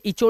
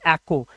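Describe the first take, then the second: First: The middle consonant sounds like 'ch'. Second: The middle consonant sounds like 'k'. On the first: The speaker calls it wrong. "इसे इचो नहीं पढ़ेंगे" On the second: The speaker calls it right. "इसे पढ़ेंगे एक्को"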